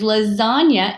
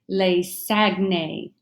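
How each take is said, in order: First: It is said with Italian sounds. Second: It is read with English letter sounds. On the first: The speaker calls it right. "It comes from the Italian language" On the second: The speaker calls it wrong. "With an English pronunciation"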